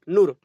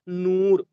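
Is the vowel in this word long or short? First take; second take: short; long. First: The vowel is clipped short. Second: The vowel is drawn out long. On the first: The speaker calls it wrong. "ऐसे नहीं पढ़ेंगे ना" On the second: The speaker calls it right. "जैसे हम लोग इसको पढ़ेंगे"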